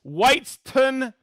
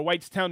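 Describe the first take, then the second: First: Whitestown said slowly as WHITES-tun; first take, Whitestown ending in a short -tun; first try at town name. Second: Whitestown ending in a full TOWN; second take, Whitestown with the -town sounded out; corrected town name. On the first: Host reading viewer hometowns, first try at Whitestown. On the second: Host correcting himself on a viewer's town, corrected Whitestown. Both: Shown as a demonstration. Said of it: "or Whitestown".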